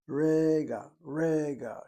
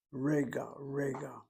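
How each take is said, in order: First: "rega" punched out loud, first syllable leaning hard; emphatic rega. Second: Said in the usual way. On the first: Shown as a demonstration. Teacher showing the word's emphatic marker, emphatic "rega". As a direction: hit REga hard, both times. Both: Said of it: "She puts an emphatic marker after that word".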